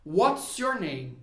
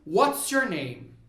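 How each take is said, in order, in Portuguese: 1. What e is são unidos em uma palavra curta só. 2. What e is são unidos em uma palavra curta só.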